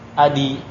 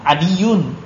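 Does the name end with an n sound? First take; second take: no; yes. First: The name ends in a vowel without n. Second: The name ends with an added n sound. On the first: The name is treated as non-Arabic without nunation. "itu juga nggak ada tanwin ya" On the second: The name is treated as Arabic with nunation. "ada tanwinnya"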